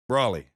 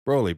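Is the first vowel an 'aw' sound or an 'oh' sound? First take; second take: aw; oh. First: The first vowel sounds like 'aw'. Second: The first vowel sounds like 'oh'. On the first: The speaker calls it wrong. "some people pronounce Broly as Brawly" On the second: The speaker calls it right. "how people pronounce the word Broly"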